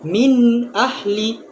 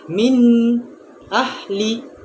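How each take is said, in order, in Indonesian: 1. Kedua kata itu menyambung tanpa jeda. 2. Ada jeda di antara kedua kata itu. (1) "Dia hendaklah terus, secara terus" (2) "Dia tak boleh berhenti di tengah-tengah"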